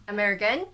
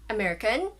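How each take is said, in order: No difference in how they are said.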